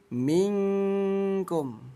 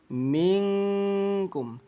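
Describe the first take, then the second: First: The n sound is muffled into an ng sound. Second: The n sound is muffled into an ng sound.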